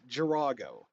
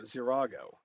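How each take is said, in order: First: The word begins with a hard G sound. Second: The word begins with a Z sound. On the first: The speaker calls it wrong. "He says Girago" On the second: The speaker calls it right. "just say Z"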